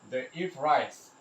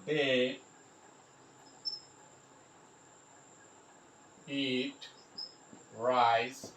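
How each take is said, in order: First: Said in the usual way. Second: Word by word with long pauses; mot à mot. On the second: Shown as a demonstration. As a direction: dictate it slowly, one word at a time. Spelling out example while writing.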